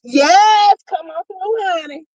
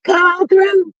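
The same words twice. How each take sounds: First: High, lively call in her signature voice. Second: High signature catchphrase call. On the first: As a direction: deliver the catchphrase with swagger. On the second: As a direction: repeat the call, just as bold. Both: Shown as a demonstration. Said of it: "in my G voice".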